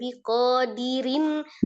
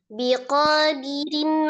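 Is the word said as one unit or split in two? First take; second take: split; one unit. First: The word sounds split between biqo and dirin. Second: The word flows as one unbroken unit. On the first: The speaker calls it wrong. "kalau kayak gitu kepisah biqo dengan dirin" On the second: The speaker calls it right. "Kan biqadirin kan satu kata"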